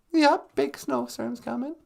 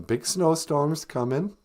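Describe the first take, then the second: First: Much higher puppet echo; puppet echoing the news. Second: Said in the usual way. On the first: Acted. Puppet agreeing with host about the snowstorm, high squeaky. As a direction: chirp it back in the puppet voice.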